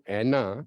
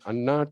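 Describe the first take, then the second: First: The name starts with an 'eh' vowel. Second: The name starts with an open 'ah' vowel. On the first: This is how someone else misread the name. The speaker calls it wrong. "He pronounced his name as एना Khandale" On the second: This is the name as it really is. The speaker calls it right. "आपका नाम अभी change हो गया है from अन्ना"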